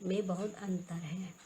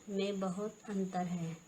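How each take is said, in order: Both takes have the same delivery.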